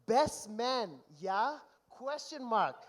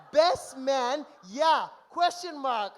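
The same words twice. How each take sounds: First: Said in the usual way. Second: Mocking repeat. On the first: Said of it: "I'm reading this verbatim". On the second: Mocking repeat of the groom's text.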